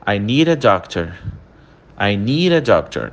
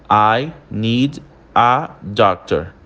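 First: "need a" run together as "nee-ra"; rápido e junto. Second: Slow "I need a doctor" with gaps between the words; pausado. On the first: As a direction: say "I need a doctor" linked as one sound, an R between "need" and "a". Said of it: "quando a gente fala ela rápida". ("need a" emendado, com som de R) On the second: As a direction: separate every word, keeping the D of "need" distinct. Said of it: "quando a gente fala essa frase pausada". (bem pausado, separando as palavras) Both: Shown as a demonstration.

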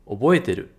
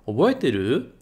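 First: Oboeteru. with the pitch dropping at the end, as a statement; falling answer tune. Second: Oboeteru? with the pitch rising at the end, as a question; rising question tune. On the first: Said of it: "E se for pra baixo, é uma resposta". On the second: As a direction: ask Oboeteru? lifting the last syllable. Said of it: "Fazer pra cima". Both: Shown as a demonstration.

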